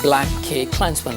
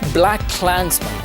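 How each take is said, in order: First: The middle K is said as the word cake. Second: The middle K is silent, not pronounced. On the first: The speaker calls it wrong. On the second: The speaker calls it right.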